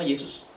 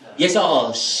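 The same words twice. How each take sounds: First: The name has a standard Indonesian pronunciation. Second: The name has a Javanese-accented pronunciation. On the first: "Orang Jawa nggak pernah memanggil nama Yesus" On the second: "Orang Jawa ngomongnya Yesus"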